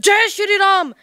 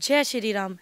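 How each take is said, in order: First: It is said aggressively and arrogantly. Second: It is said warmly and affectionately. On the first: The greeting expresses pride and aggression. The speaker calls it wrong. "अहंकार नज़र आ रहा है ना" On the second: The greeting expresses love and devotion. The speaker calls it right. "कितना भाव नज़र आ रहा है"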